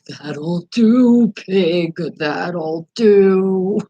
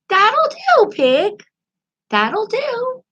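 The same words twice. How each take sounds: First: A creepier voice that sounds scary. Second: A small, mousy voice that is not scary.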